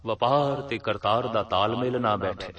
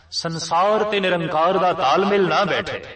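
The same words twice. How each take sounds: First: Said in the usual way. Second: Higher and louder, driving the point home; fervent preacher's climax; emphatic preaching. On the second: Acted. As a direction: raise it on ਸੰਸਾਰ and ਨਿਰੰਕਾਰ. Sermon parallel, second take raised.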